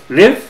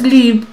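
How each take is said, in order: First: The vowel is a short, lax i sound. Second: The vowel is a longer, tenser i sound. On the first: The speaker calls it right. "es live, una I cortita" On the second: The speaker calls it wrong. "No es live"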